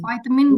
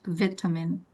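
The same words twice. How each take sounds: First: It is said with an American pronunciation. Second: It is said with a British pronunciation. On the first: "that's American" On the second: "Kalau ini British"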